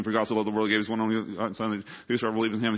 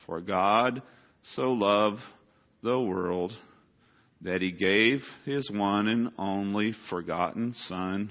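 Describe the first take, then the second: First: Put-on child racing through the verse; rattled off fast. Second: Each phrase spaced out, slow; careful word-by-word recital; said very slowly. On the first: Child reciting John 3:16 for the teacher, rushed. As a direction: gabble the memory verse at top speed. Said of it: "but he says it super fast". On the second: Retold or imitated. Child repeating the verse slowly as the teacher asked. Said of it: "I need you to say it very slowly".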